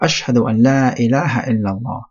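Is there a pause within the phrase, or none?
none. It is said in one go without pausing. It testifies that there is no deity but God. The speaker calls it right. "it needs to be in one go"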